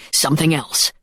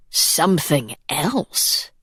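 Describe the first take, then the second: First: "something else" said flatly, falling to a close; falling statement. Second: "Something else?" drawn out slowly with a rising question tune; echoed question. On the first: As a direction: state "something else" as a plain fact, tune dropping at the end. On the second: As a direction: echo "Something else?" back in disbelief, slow, lifting at the end. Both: A narrator's reading. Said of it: "echoed Sloane".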